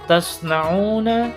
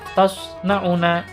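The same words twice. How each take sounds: First: The vowel is held long, for two beats. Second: The vowel is said short, not held. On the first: The speaker calls it right. "dibacanya harus dipanjangkan" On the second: The speaker calls it wrong. "Maka itu tidak boleh dibaca tasna'una"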